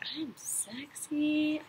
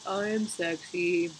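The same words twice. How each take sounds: First: It is said with warm, felt conviction. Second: It is said flatly, without real feeling.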